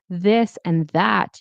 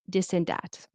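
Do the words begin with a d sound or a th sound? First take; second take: th sound; d sound. First: The words begin with a th sound. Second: The words begin with a d sound. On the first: The speaker calls it right. "instead of saying" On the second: The speaker calls it wrong. "Or you might say dis"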